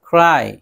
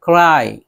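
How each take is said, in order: No difference in how they are said.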